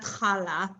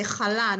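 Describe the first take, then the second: First: CHAla with the stress up front; wrong stress. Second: ChaLA with the weight on LA; chala, final syllable stressed; correct stress. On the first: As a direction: say chala stressed on the first syllable. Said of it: "not chala". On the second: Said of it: "you say chala". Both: Shown as a demonstration.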